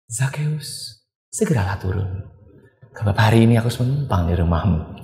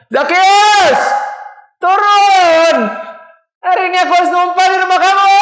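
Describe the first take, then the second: First: It is said softly and calmly. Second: It is shouted loudly.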